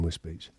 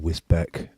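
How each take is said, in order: First: The second syllable sounds like 'beach'. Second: The second syllable sounds like 'beck'. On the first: This is how locals say the name. The speaker calls it right. "which is actually pronounced Wiz, Wisbeach" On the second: This is how an outsider says the name. The speaker calls it wrong. "as he pronounces it"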